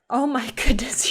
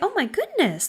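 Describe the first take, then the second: First: It is said in a harsh, critical tone. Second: It is said in a warm, kind tone. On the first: The child is being scolded for failing. The speaker calls it wrong. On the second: The child is being encouraged to keep trying. The speaker calls it right.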